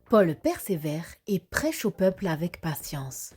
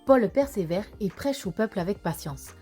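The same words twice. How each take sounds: First: The sentence is said somewhat quickly. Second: The sentence is said very quickly. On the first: "un peu plus rapidement" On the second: "encore plus vite?"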